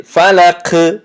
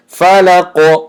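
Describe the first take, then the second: First: فلق ending in a light, k-like "ke"; wrong thin qaf. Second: فلق ending in a heavy, rounded "qo"; thick qaf. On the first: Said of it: "تنک نیست". («فلق» бо қофи тунуки нодуруст) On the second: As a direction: chant فلق high with a dark bouncing qaf. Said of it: "بلکه غوص". («فلق» бо қофи ғафс) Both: Shown as a demonstration.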